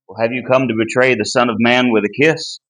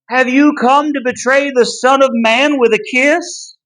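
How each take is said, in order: First: It is said in a plain, casual way. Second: It is said with strong, forceful emphasis.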